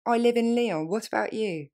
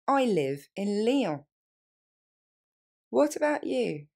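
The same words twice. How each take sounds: First: Quick, natural pace; faster. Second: Slow, careful model phrases; slowly. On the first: Teacher modeling native speed for learners. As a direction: run it together naturally. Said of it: "plus rapidement". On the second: Teacher repeating slowly for students. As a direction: give learners every word. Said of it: "On reprend lentement". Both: Shown as a demonstration.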